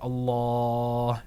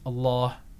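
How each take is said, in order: First: The long vowel is held about four seconds. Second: The long vowel is held about two seconds. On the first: "You can make it 4 seconds" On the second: "You can make it 2 seconds"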